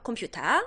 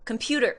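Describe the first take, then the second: First: It is said with plain Korean-style sounds. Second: It is said with Americanized, rolled English sounds. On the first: The speaker calls it right. "굴리면 안 돼" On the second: The speaker calls it wrong. "컴퓨터 아니고요"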